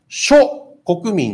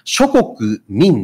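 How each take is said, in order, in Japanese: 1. 「諸国民」は「しょ」と「こくみん」で区切られる。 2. 「諸国民」は「しょこく」と「みん」で区切られる。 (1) "諸国民って言ったら日本国民のもろもろっていう" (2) "諸国民であれば世界中のもろもろの国の人々っていう意味になるでしょ"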